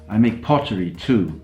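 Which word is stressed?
pottery. The word pottery carries the main stress. The speaker makes other things besides. "I don't only make guitars"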